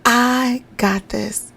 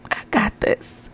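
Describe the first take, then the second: First: Very slow, each word spaced out; slow emphatic self-belief; firm affirmation. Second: Slow breathy self-talk whisper; whispering a mantra to a struggling mom; whispered affirmation. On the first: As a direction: say it like you mean it, slowly. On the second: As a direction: whisper it to yourself slowly. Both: Shown as a demonstration. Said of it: "Tell that to yourself".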